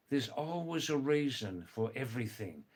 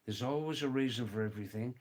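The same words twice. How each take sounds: First: Unhurried, spaced-out saying; measured teaching delivery; measured statement. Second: Fast, run-together saying; brisk casual delivery, rising at the end; quick repeat. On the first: Same saying given slowly, then fast. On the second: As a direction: rattle it off in one go. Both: Shown as a demonstration.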